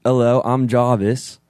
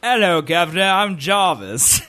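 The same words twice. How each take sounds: First: Put-on slow, restrained British accent; Jarvis impression. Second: British Jarvis impression. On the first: Nervous friend finally doing the voice on demand, careful British accent. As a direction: attempt a measured British assistant voice. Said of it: "Just say, "Hi, I'm Jarvis," but in Jarvis's voice". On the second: Host showing his friends a Jarvis, hammy British accent. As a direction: do a hammed-up British butler greeting, stretching the name. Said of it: "Let's hear your Jarvis impression".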